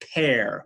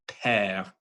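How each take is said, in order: First: The vowel sounds like the English word pear. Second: The vowel is a pure, open French e. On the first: The speaker calls it wrong. "People make the mistake of, uh, of thinking that's like a pear" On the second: The speaker calls it right. "if you really listen to the pure French pronunciation"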